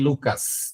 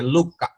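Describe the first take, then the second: First: The name ends with an s sound. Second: The name ends without any s sound. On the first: The speaker calls it wrong. "não tem Lucas" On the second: The speaker calls it right. "não tem som de S, é Luca"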